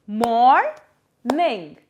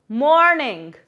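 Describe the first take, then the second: First: "morning" broken in two, pause after the first syllable. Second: Said in the usual way. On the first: Shown as a demonstration. Teacher dividing a word for kids, "morning" syllable by syllable. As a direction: say "morning" as two separate, drawn-out beats. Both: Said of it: "divide the word with some claps".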